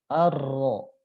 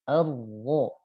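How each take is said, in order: First: The r is trilled strongly with clear vibration. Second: The r is trilled faintly with reduced vibration. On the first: The speaker calls it wrong. "Saya bacakan yang getarannya hadir" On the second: The speaker calls it right. "Sekarang getarannya kita saya samarkan"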